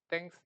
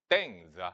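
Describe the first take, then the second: First: The word ends with an s sound. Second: The word ends with a z sound. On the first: The speaker calls it right. "그냥 땡스 그냥 이렇게 읽으면 되잖아" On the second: The speaker calls it wrong. "S는 다 지로 읽었어. 스가 아니라"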